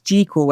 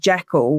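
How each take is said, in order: First: The first syllable has a long e, like jeek. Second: The first syllable has a short e, like jeck. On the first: This is the original pronunciation from the novella. "it's supposed to rhyme with Seek" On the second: This is the commonly adopted pronunciation. "we've all adopted it as Jekyll"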